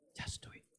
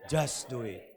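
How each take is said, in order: First: It is whispered. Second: It is said aloud in a normal voice.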